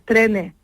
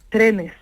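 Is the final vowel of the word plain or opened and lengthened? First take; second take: opened; plain. First: The final vowel sounds opened and lengthened. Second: The final vowel sounds plain and normal. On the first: "si abrimos la vocal sería la última" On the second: "lo pongo en plural"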